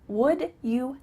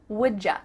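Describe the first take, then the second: First: You begins with a clear y sound. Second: You is reduced to a ja sound.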